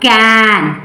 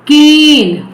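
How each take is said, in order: First: कैन with a short flat A as in can; short a sound. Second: केन with a long A, said as its name; long a sound. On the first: Teacher contrasting can with cane, short A. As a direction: clip the vowel in कैन short. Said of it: "Short vowel sound". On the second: Teacher contrasting cane with can, long A. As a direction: stretch the vowel in केन like the letter A. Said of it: "कैन। Short vowel sound, here long vowel sound". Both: Shown as a demonstration.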